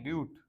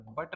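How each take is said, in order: First: The vowel sounds like 'yoo' with a y-glide. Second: The vowel sounds like 'uh' with no y-glide. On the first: The speaker calls it right. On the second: The speaker calls it wrong.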